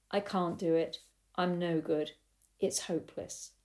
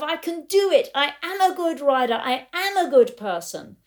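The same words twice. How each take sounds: First: Soft, defeated self-talk; subdued, giving-up voice, fading out; despair. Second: High, loud self-affirmation; acted-out elation, pitched well up; euphoria. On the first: Retold or imitated. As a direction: let it sink away into hopelessness. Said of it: "the grumpiness or the despair". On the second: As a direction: declare it elatedly, punching the key words. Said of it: "lose the euphoria of".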